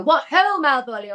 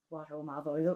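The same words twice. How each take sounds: First: Lightly imitated posh English actor, higher and louder; a light send-up of the posh drama-school "What ho, Malvolio?"; posh English accent. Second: Put-on the line in a Northern Irish accent, lower and softer; "What ho, Malvolio?" said in her own Northern Irish accent, a little deflated. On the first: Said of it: "people would go". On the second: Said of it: "didn't sound right in my accent".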